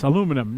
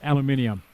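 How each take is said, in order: First: It is said the American way. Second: It is said the Australian way. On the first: The speaker calls it right. "you know it's aluminum" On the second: The speaker calls it wrong. "not aluminium"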